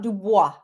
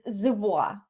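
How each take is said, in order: First: The name begins with a D sound. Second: The name begins with a Z sound. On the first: This is not the Canadian pronunciation. The speaker calls it wrong. "not Dubois" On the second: This is the Canadian pronunciation. The speaker calls it right. "the Canadian way is Zivois"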